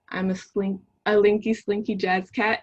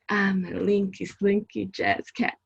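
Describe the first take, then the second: First: It is read in a plain voice. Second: It is read playfully, imitating her mom.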